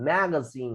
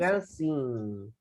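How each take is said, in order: First: "magazine" said as one whole word; pronunciation model. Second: "magazine" stretched out slowly, ma-ga-siiin; slow pronunciation model. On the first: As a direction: model "magazine" as ma-ga-SIN, unbroken. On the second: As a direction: break "magazine" into slow syllables. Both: Shown as a demonstration. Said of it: "Practiquen la pronunciación esta".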